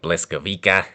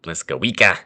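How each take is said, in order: First: The second sound is an L, ending in 'wick-a'. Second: The same.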